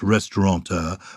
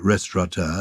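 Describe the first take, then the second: First: The word is said with an n sound. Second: The word is said without an n sound. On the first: "not restaurateur" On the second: "I say restaurateur"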